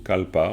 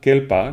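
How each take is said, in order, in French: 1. La première voyelle est un son 'a'. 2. La première voyelle est un son 'e'. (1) "mais évidemment kalpa, on prononce bien souvent kalpa" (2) "kelpa normalement"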